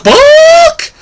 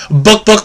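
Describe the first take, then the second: First: Book squawked very high and loud; chicken squawk. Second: Short clucking chicken book book; chicken clucks. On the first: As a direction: end on a shrill chicken squawk. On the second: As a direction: cluck it like a hen. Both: Acted. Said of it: "and the chicken said".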